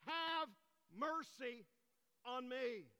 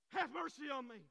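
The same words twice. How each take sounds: First: Loud, high, drawn-out plea; acted crying out. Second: Loud, high plea in one run; acted insistent cry. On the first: Blind man begging Jesus for mercy, acted crying out word by word. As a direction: cry it out word by word, with pauses. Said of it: "he cries and screams out". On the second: Blind man defying those who hushed him, acted insistent cry. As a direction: cry out all the more, without pausing. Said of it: "he cried out all the more".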